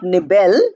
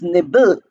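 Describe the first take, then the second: First: The ending is a fuller syllable, not bl. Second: The ending is a short clipped bl sound. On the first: The speaker calls it wrong. "it is not nibble" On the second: The speaker calls it right. "but it is nibble. Bl"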